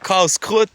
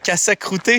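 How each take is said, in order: First: The word is said as two syllables, kas-krut. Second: The word is said as four syllables, ka-sa-kru-te. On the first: This is the usual local word. The speaker calls it right. "c'est le casse-croûte" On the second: This is how a newcomer mispronounced it. The speaker calls it wrong. "je sais même pas quel mot t'essayes de dire"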